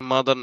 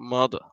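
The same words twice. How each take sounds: First: It is said with a Bangladeshi accent. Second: It is said with an English accent. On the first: The speaker calls it wrong. "মাদার না" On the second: The speaker calls it right. "কিন্তু মাদার"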